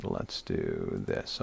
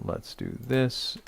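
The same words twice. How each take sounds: First: Much lower, slow and soft; playful low slow-motion voice; mock deep slow voice. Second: Said in the usual way. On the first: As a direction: drop into a deep, drawn-out mock voice. Clicking to share his screen.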